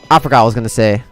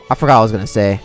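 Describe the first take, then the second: No difference in how they are said.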